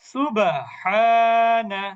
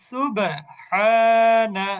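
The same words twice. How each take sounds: The two takes are said the same way.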